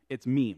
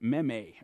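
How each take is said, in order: First: The word is given a plain English pronunciation. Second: The word is given a French-sounding pronunciation. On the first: The speaker calls it right. "It's not that, that's too simple" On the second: The speaker calls it wrong. "I think it's like a French word"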